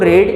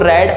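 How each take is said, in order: First: The vowel is long, like in 'seed'. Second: The vowel is short, like in 'bed'. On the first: It is the base form of the verb. "इसको रीड" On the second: It is the past or past participle form. "इसको रेड"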